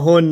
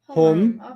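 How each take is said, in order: First: The word ends with an N sound. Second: The word ends with an M sound. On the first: The speaker calls it wrong. "So don't say hua, homa, hun" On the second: The speaker calls it right. "This one has an M at the end"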